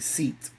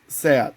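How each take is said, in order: First: It is said like the English word seat. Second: It is said with a Spanish pronunciation. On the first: The speaker calls it wrong. "if someone in English would read it, would say seat" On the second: The speaker calls it right. "it's actually pronounced Seat"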